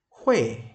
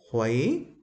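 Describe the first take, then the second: First: The pitch falls sharply from high to low. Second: The pitch rises from mid to high. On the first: "thanh bốn" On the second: "thanh hai"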